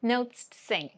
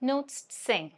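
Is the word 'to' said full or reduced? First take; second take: reduced; reduced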